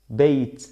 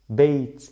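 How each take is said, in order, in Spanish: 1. La palabra termina en un sonido 't' suelto. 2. La palabra termina en un sonido 't' suelto.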